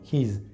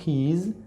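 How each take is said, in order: First: One contracted syllable sounding like his. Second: Two separate words, he and is. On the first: "sino his" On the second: "No he is"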